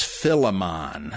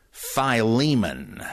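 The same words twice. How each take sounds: First: "Philemon" as FILL-uh-mahn; short i in "Philemon", ending in a long mahn; mispronunciation. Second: "Philemon" as fye-LEE-mun, drawn out; slowly, "Philemon" with long i and stressed LEE; correct pronunciation. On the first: Quoting the mistake people hear, "Philemon" as FILL-uh-mahn. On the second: Teaching a short epistle's name, "Philemon" as fye-LEE-mun. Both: Shown as a demonstration. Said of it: "you've heard it mispronounced as Philemon".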